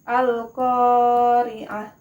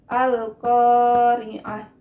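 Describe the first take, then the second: First: The first long vowel is held for two beats. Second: The same.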